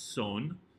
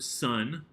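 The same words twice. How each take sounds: First: The word is pronounced with Spanish vowels and sounds. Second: The word is pronounced like the English word. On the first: The speaker calls it right. "It's son" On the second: The speaker calls it wrong. "not the word son like we have in English"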